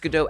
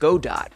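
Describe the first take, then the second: First: It ends without a t sound. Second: It ends with a clear t sound. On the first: The speaker calls it right. "Before I saw you pronounce Godot out loud" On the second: The speaker calls it wrong. "Like the word go and then the word dot"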